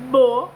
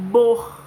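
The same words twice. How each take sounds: First: "Bo" loud and open, no R; pronouncing bo. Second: "bor" loud, R rasped in the throat; pronouncing bor. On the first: Teacher contrasting the second syllable, loud open bo. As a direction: say "Bo" plain, no R. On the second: Teacher dictating borboleta, loud throaty R in bor. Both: Shown as a demonstration. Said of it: "que é diferente".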